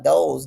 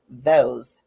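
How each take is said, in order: First: The first sound is a flat, d-like stop. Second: The first sound is a soft th. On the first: The speaker calls it wrong. "Are you leaving your tongue flat in your mouth? Duh" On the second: The speaker calls it right. "instead of saying those"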